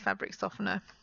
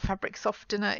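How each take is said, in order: First: The T in softener is silent. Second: The T in softener is pronounced. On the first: The speaker calls it right. "it's fabric softener" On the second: The speaker calls it wrong. "it's not fabric softener"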